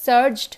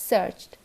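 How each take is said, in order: First: সার্চড loud, with a voiced D; wrong D ending. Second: সার্চড with a crisp T; voiceless ending on সার্চড; correct T ending. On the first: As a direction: say সার্চড as "surjd". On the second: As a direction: say সার্চড as "surcht". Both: Shown as a demonstration. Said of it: "না, সার্চড".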